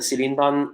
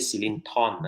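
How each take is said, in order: First: The middle consonant is pronounced as a D. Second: The middle consonant is pronounced as a T.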